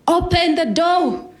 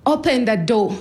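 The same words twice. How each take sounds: First: Loud, high, drawn-out yell; retold scream. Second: Raised, higher mock yell; a contained shout, quicker and less full; retold yell. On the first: Dad demands entry at the front door, screaming. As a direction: bellow it slowly at a locked door. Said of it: "he started screaming". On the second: Dad keeps demanding entry, half-screamed. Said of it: "he kept screaming".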